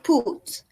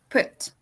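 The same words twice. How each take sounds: First: The vowel is a long, tense oo. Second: The vowel is a very short u. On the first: The speaker calls it wrong. "it's not put" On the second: The speaker calls it right. "it's put. It is a very short U"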